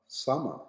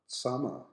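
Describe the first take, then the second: No difference in how they are said.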